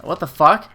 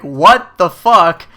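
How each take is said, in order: First: Said in the usual way. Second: Loud, slow, drawn-out what the fuck; outraged disbelief. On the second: Retold or imitated. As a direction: let the outrage out slowly. Server walks away ignoring him.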